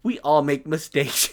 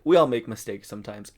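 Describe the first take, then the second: First: Slow, drawn-out mock innocence; imitated oblivious sweetness, louder and unhurried; innocent smile. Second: Said in the usual way. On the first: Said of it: "with, like, the most innocent smile and just goes". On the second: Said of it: "the most innocent smile and just goes".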